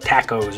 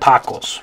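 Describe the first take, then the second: First: The first vowel sounds like in tack. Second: It is pronounced with Spanish sounds. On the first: "if it were an English word, we'd probably say" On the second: "the correct way to say it in Spanish is"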